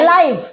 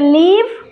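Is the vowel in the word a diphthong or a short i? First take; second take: diphthong; short i. First: The vowel is a gliding ai sound. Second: The vowel is a short i sound. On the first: It means broadcast as it happens. "ଗୋଟେ ଲାଇଭ୍" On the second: It means to reside or stay alive. "ଗୋଟେ ଲିଭ୍"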